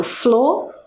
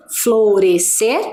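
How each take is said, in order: First: "florescer" split the other way, ending in a rise; other split option. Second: "Florescer" split slowly with a rising question; one split option. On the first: Teacher offering the second split, questioning. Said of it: "Ou será que eu separo". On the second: Teacher testing a syllable split, questioning. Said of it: "Será que eu separo desta forma". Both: Shown as a demonstration.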